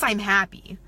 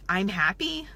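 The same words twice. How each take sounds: First: It is said firmly, like a plain fact. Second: It is said hesitantly, without conviction. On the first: The speaker is sure of who they are. The speaker calls it right. "like it's a fact" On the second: The speaker is not sure of who they are. The speaker calls it wrong. "That is very different than hearing"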